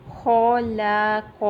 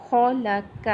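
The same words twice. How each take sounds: First: خلق with the vowels unevenly stretched; wrong reading. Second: خلق with all three short vowels equally long; even vowels. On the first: Teacher showing the wrong way to read خلق. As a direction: drag خلق out slowly the wrong way. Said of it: "اس کو نہیں کرنا، یہ wrong ہو جائے گا". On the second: Teacher showing the correct even reading of خلق. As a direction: say خلق crisply, each vowel the same length. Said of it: "تو تینوں کی مقدار سیم ہوگی". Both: Shown as a demonstration.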